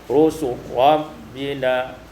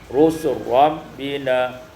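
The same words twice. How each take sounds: No difference in how they are said.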